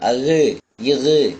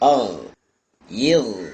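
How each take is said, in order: First: A short vowel sound follows the consonant. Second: The consonant ends the syllable with no vowel. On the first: The speaker calls it wrong. "அகு இகு என்பதாக அசைச்சிட்டோன்னு சொன்னா அது தவறாக ஆயிடும்" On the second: The speaker calls it right. "அசைக்கக்கூடாது"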